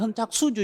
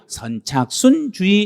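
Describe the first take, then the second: First: The third syllable ends without an n sound. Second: The third syllable ends with an n sound. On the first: "원래는 선착수주의라고 그래요" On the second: "니은자를 넣어가지고 선착순주의 이렇게 발음했던 거예요"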